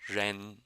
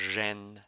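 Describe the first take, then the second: No difference in how they are said.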